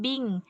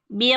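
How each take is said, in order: First: The voice stays level on the syllable. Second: The voice rises on the syllable. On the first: The speaker calls it wrong. "jangan bing" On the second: The speaker calls it right. "tapi bing naik"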